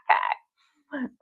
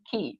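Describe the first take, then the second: First: The name rhymes with 'eye'. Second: The name rhymes with 'see'. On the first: The speaker calls it wrong. "not Kai" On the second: The speaker calls it right. "now I remember it's Key"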